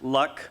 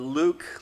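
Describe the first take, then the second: First: The vowel is a short 'uh' sound. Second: The vowel is a long 'oo' sound. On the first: "Luck, like of the draw" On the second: "which I've always pronounced like, uh, are you my, uh, I'm your father"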